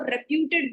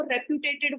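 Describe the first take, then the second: First: रेप्यूटेड in three syllables, rep-YOO-ted; correctly pronounced reputed. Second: रेप्यूटेटेड said rep-yoo-TAY-ted, one syllable too many; mispronounced reputed. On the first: Teacher correcting students' pronunciation, रेप्यूटेड as rep-yoo-ted without extra syllable. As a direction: say रेप्यूटेड with "ted" straight after "pyoo". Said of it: "इसको रेप्यूटेड बोला जाता है".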